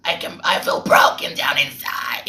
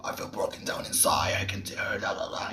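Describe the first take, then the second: First: Put-on creature voice, mocking; exaggerated golem-like rendering; golem imitation. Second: Whispered, very soft dark voice; hushed, shadowy demonstration; dark shadowy silhouette. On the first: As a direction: imitate a singer who sounds like a golem. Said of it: "you're sounding like a golem". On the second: Shown as a demonstration. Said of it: "you're supposed to be".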